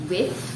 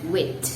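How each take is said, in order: First: The word ends with an f sound. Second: The word ends with a t sound. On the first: "not with" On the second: "or wit"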